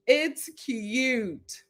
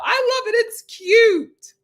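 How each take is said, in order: First: Said in the usual way. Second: Squealed high and loud, delighted; cute, cute, cute!; gushing. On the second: Real, not acted. Gushing to the co-host about his accent, squealing.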